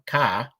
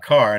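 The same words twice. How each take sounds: First: The final R sound is dropped. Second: The final R sound is clearly pronounced. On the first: "not a car" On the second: "I just pronounce my R's now"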